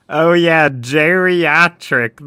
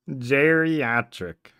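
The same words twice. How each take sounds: First: Loud, drawn-out eureka; finally remember the word, triumphant; excited discovery. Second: Said in the usual way. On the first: Real, not acted. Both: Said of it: "That's the word".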